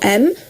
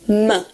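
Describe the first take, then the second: First: The m sound is held with no added vowel. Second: The m sound ends with a short added vowel. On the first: The speaker calls it right. "instead of saying m for M" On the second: The speaker calls it wrong. "you would say m, which is incorrect"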